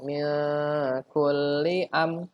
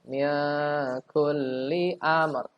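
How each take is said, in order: First: The final r sound is dropped. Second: The final r sound is clearly heard. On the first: The speaker calls it wrong. "Jangan mil kulli am" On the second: The speaker calls it right. "ada ro-nya"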